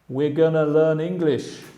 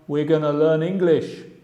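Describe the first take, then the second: First: Going to is reduced to a short gonna. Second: Going to is reduced to a short gonna.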